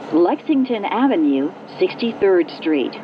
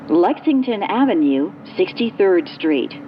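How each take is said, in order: Both takes have the same delivery.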